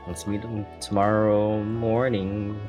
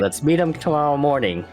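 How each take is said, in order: First: It is said in a hesitant, unsure way. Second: It is said in a firm, confident way.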